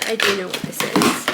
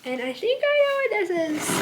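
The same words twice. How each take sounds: First: "do" pressed firmly, as a correction; stress on do. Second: Pretend-unsure guess, voice pitched higher; coy guess. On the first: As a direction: admit it, leaning hard on "do". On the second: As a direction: playfully pretend you don't know what's in the package. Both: Shown as a demonstration. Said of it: "And by I think I know what this is".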